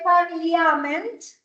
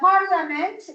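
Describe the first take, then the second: First: The second vowel letter is pronounced aloud. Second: The second vowel letter is not pronounced. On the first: The speaker calls it wrong. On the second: The speaker calls it right.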